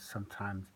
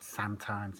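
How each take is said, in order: First: The first vowel is an 'uh' sound. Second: The first vowel is an open 'a' sound. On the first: The speaker calls it right. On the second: The speaker calls it wrong.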